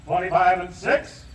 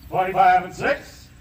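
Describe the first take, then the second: No difference in how they are said.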